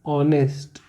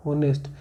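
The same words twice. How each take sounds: First: ऑनेस्ट with a silent h, starting on an open o; correct pronunciation. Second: होनेस्ट said with a clear spoken h at the start; wrong pronunciation. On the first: Teacher giving students the right reading, ऑनेस्ट without the h. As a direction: drop the h and begin ऑनेस्ट on the vowel. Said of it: "इसका सही pronunciation होता है". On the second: Teacher showing students the wrong reading, होनेस्ट with the h sounded. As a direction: sound the h in होनेस्ट, as the common mistake. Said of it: "जो गलत है". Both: Shown as a demonstration.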